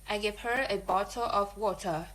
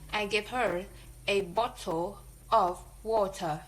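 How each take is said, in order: First: Her, a and of are reduced to schwa. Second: Her, a and of have full, strong vowels. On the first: The speaker calls it right. "so we should say it in weak form" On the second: The speaker calls it wrong. "this sentence in strong form"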